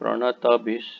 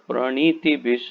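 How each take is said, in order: First: The vowel after the n is dropped. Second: The vowel after the n is a long i. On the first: "या प्रणत भिष ना हो जाए" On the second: "कई बार प्रणीति भिष ना हो जाए"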